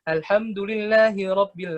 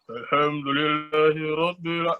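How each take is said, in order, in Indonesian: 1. Suaranya santai, seperti obrolan sehari-hari. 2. Suaranya ditekan turun secara tidak wajar. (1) "intonasi kita ngobrol nih, tapi ngobrolnya kayak lagi biasa aja sama temen" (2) "Intonasi rendah itu bukan rendah-rendahin ya, bukan kayak"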